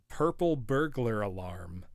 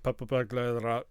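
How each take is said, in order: First: Said in the usual way. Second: "Purple burglar alarm" in Glaswegian, R's dropped and clipped; Glaswegian accent. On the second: Shown as a demonstration. Streamer mimicking how Glaswegians say it, in a Glaswegian accent. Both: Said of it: "which for a Glaswegian is like".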